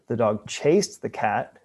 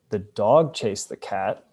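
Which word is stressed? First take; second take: chased; dog. First: The word chased carries the main stress. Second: The word dog carries the main stress. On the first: It was this action, not another one. "as opposed to doing some other action" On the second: It was this animal, not another, that chased. "as opposed to some other animal"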